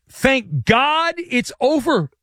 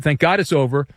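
First: High, slow, drawn-out sigh of relief; relieved quote. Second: Said in the usual way. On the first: Retold or imitated. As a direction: stretch out "Thank God it's over" slowly and higher like a huge relief. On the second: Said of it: "The left tackle of the Eagles said".

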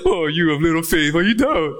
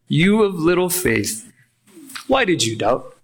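First: Lightly mocking, superior lilt; condescending. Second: Genuine question. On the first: Preacher demonstrating a condescending Jesus, lightly mocking. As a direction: talk down to him a little. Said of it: "a condescending tone into this". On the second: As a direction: ask it truly wanting to know. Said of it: "This is a genuine question". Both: Shown as a demonstration.

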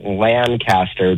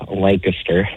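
First: Lancaster with a drawn-out LAN and a full CAST; Californian pronunciation. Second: Lancaster squeezed into LANK-ister; local pronunciation. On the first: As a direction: say Lancaster slowly as LAN-cas-ter. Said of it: "Californians say it Lancaster". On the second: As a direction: say Lancaster with a short, reduced middle, LANK-uh-ster. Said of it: "it's actually pronounced Lancaster". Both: Shown as a demonstration.

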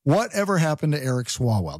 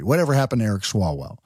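First: Said in the usual way. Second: Lower, faster, announcing it like a documentary title. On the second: Shown as a demonstration. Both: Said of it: "That should be like a documentary".

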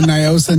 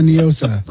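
First: Niosa said "nye-OH-sa"; NIGH-oh-sa pronunciation. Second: Niosa said "nee-OH-sa"; Spanish-style pronunciation. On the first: Host airing a naming dispute, Niosa as "nigh-OH-sa". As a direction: open Niosa with a long "nigh" sound. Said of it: "Don't get me started on Niosa, Niosa". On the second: Host airing a naming dispute, Niosa as "nee-OH-sa". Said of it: "pronounce it like it's Spanish". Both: Shown as a demonstration.

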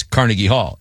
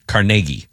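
First: "Carnegie" stressed on the first syllable, CAR-ne-gie; New York pronunciation. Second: "Carnegie" stressed on the middle, car-NAY-gie; Pittsburgh pronunciation. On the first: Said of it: "if you're in New York". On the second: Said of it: "In Pittsburgh". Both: Shown as a demonstration.

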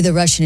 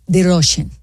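First: Said in the usual way. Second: Put-on Russian accent on "Russian"; thick comic Russian accent. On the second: Shown as a demonstration. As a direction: say "Russian" with a rounded Russian-accented first vowel. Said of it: "the only way to go into the Russian".

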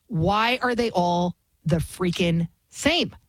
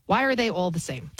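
First: "freaking same" slowed and spaced out, word by word; exasperated emphasis. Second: Said in the usual way. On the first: Real, not acted. Host fed up with Harris voters, exasperated emphasis. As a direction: draw out "same" at the end of a slow question.

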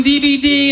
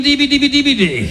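First: Said in the usual way. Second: "D V D, D V D" rattled off as a singsong string; rapid-syllable sales patter. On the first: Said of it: "What's the difference between". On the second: Retold or imitated. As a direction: say "D V D, D V D" as one running chain of rhyming syllables. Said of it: "that does sound better".

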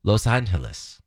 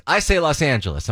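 First: "Los Angeles" as "lohs AHN-heh-les"; Spanish-style "Los Angeles", long O and H for the G; other local pronunciation. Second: "Los Angeles" said with an open LAWSS; own usual pronunciation. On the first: Host demonstrating a version heard locally, Spanish-style "Los Angeles", lower. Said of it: "also heard throughout my life". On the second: Born-and-raised local giving own version, "Los Angeles" with open vowel. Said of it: "give you two pronunciations". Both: Shown as a demonstration.

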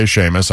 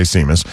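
First: Seamus said as SHAY-mus; Irish pronunciation. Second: Seamus said as SEE-mus; spelling pronunciation. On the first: Host contrasts the two men's versions, Seamus as SHAY-mus. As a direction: say Seamus starting with sh and a long ay. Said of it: "you say Seamus". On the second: Host states his own version, Seamus as SEE-mus. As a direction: say Seamus with a plain s and long ee. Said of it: "I say Seamus". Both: Shown as a demonstration.

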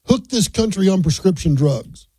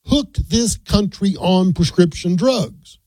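First: Said in the usual way. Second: Each word spaced out, very slow; slow emphasis. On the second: Real, not acted. Radio host quoting a health secretary's charge, slow and emphatic. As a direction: land the quote word by deliberate word. Quotes a striking line, then repeats it.

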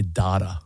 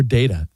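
First: DATA said "DAH-tuh"; broad-A data. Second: DATA said "DAY-tuh"; long-A data. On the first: Co-host asking which way it's said, DATA as "DAH-tuh". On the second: Co-host offering the other option, DATA as "DAY-tuh". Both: Shown as a demonstration. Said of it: "Or do you say data?".

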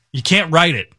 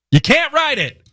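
First: Said in the usual way. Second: "You can't write it" thrown up high in disbelief; incredulous high repeat. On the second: Real, not acted. Host to co-host about the plague news, incredulous high repeat. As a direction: toss it up high, amazed at the absurd story.

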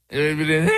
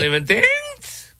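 First: Said in the usual way. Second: "Believe in things?" squeaked very high and slow; scoffing echo, pitched right up; mock incredulous. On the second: Real, not acted. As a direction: echo it back in disbelief, way up high.

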